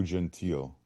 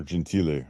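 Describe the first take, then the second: First: Gentile said as jen-TEEL, silent final e; Gentile ending on an L sound; anglicized pronunciation. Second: Gentile said as jen-TEE-leh, final e sounded; Gentile with an audible -leh ending; Italian-style pronunciation. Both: Shown as a demonstration. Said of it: "however you pronounce it".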